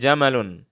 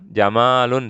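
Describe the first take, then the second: First: The second vowel is short. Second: The second vowel is drawn out long. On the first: The speaker calls it right. "jangan kita panjangkan" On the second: The speaker calls it wrong.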